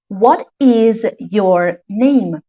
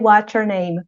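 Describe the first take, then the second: First: It is said slowly, with every word separate. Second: It is said fast, with words run together. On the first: "In slow speech" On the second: "In fast speech"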